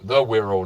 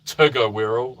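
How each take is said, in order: First: Said in the usual way. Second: "Tugger" sounded out as one word from T G E; mistaken reading. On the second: Shown as a demonstration. Host correcting a viewer's abbreviation, mock mispronunciation "Tugger". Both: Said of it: "not Tugger Wirral".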